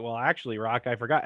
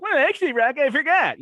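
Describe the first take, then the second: First: Said in the usual way. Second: Very high, loud whiny mock voice; impression of the Coach. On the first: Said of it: "the coach was like". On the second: Rock mocking the Coach's excuse, very high whiny impression. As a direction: whine it up high like a nerdy sidekick. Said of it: "how he used to do that impression".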